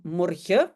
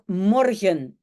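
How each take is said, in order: First: The final n is dropped. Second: The final n is clearly pronounced. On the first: It is informal in-between speech. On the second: It is the standard form.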